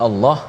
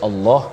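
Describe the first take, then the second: Both takes have the same delivery.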